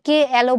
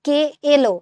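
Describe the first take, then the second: First: এলো with open ae, "ke aelo"; wrong vowel demo. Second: এলো with a pure e, "ke elo"; natural vowel. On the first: Teacher showing what we don't say, wrong vowel demo. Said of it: "আমরা কিন্তু কে এলো বলি না". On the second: Teacher showing what we do say, natural vowel. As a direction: say এলো with a close e. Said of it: "এর উচ্চারণ এর মতোই আছে". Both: Shown as a demonstration.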